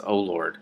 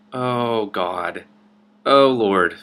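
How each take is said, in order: First: Said in the usual way. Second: Louder, falling oh Lord; loud exasperated groan. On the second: Real, not acted. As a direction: let "Oh, Lord" drop like a real sigh of exasperation. Reader reacts before reading line.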